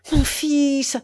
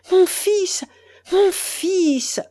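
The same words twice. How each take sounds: First: Louder and higher, first of a build; mother begins to cry out for her son; growing energy. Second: Much higher and louder, peak of the build; mother's mounting cry for her son; growing energy. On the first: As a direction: start the rising cry. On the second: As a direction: let it swell to a cry. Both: Acted. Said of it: "répéta-t-elle avec une énergie croissante".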